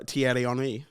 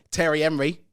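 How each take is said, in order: First: "Thierry Henry" said the French way, silent H; French pronunciation. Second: Anglicised "Thierry Henry" in mock Cockney; Cockney accent. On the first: Asked to say the French striker's name, French-style "Thierry Henry". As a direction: say "Thierry Henry" as tee-erry on-ree. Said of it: "how would you say". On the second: Joking with co-host about French names, mock Cockney accent. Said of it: "Cockney accent at the end of it". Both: Shown as a demonstration.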